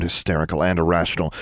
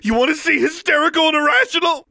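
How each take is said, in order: First: Said in the usual way. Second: Very high, loud hysterical scream. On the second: A narrator's reading. Daughter daring her father to watch, screaming. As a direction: scream the challenge at him. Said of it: "she screamed".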